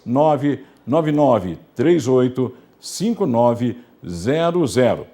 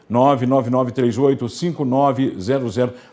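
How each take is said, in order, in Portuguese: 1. O número é lido muito devagar. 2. O número é lido em ritmo normal.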